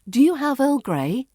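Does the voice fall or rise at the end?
rise. The pitch rises at the end. It sounds like a real question. The speaker calls it right. "going up at the end"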